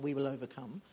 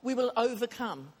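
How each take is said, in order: First: Lightly quoted song line; quoting a song. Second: Said in the usual way. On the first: Retold or imitated. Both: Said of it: "It's not just a song".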